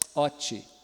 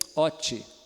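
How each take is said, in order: No difference in how they are said.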